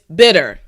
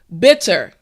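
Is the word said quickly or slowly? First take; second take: quickly; slowly. First: The word is said quickly and reduced. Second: The word is said slowly and carefully.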